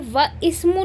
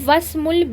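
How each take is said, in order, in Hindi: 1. 'wa' के बाद 'i' स्वर अलग से बोला जाता है। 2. 'i' स्वर छूट जाता है, और 'wasmu' जुड़ जाता है। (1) "मैं ये व इस्मु नहीं पढ़ूंगी" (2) "मैं पढ़ूंगी वस्मुल"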